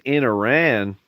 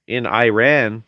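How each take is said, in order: First: Said in the usual way. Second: Iran said as "eye-RAN"; punning pronunciation. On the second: Shown as a demonstration. Setting up a running pun, Iran said "eye-RAN".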